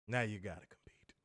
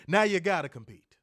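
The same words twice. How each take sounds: First: Soft whispered taunt. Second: Loud punchy taunt; emphatic. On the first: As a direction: whisper it like a secret. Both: Shown as a demonstration. Repeats line whispered.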